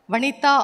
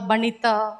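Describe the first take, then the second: First: The name begins with a V sound. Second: The name begins with a B sound. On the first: This is how people in the home region say it. The speaker calls it right. "my name is pronounced very well" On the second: This is how people in the north say it. The speaker calls it wrong. "Sometimes in North they call Banita"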